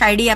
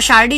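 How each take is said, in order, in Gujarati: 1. વચ્ચેનો વ્યંજન y અવાજ છે. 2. વચ્ચેનો વ્યંજન r અવાજ છે. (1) "ડ પહેલાના યનો ર નો ય થાય છે" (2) "શારડી છે"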